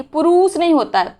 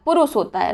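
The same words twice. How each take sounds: First: पुरुष with a stretched oo in रु; wrong long vowel. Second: पुरुष with a short u in रु; correct short vowel. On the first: Teacher quoting the mistake, long second vowel. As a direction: draw out the रू of पुरुष. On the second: Teacher giving the correction, short second vowel. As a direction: keep पुरुष quick on रु. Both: Shown as a demonstration. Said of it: "रा में छोटी ऊ की मात्रा".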